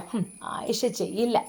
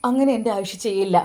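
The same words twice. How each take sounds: First: Scornful "ഹും" then softer mocking repeat of ചെയ്യില്ല with a rise; mocking echo. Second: Said in the usual way. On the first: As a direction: mimic his words back with contempt. Mother mocks son's words. (പരിഹാസത്തോടെ ആവർത്തിക്കുന്നു)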